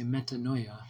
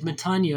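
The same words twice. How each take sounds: First: The parts meta and noia are set apart. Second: The word is said as one smooth unit. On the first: The speaker calls it wrong. "sort of mispronunciation to emphasize the two different words" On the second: The speaker calls it right. "metanoia is the correct pronunciation"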